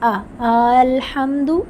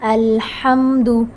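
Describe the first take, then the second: First: The opening vowel is stretched beyond one count. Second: The opening vowel is held for one count. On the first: The speaker calls it wrong. "ये मिस्टेक हो जाएगी" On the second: The speaker calls it right. "One count से ज़्यादा नहीं"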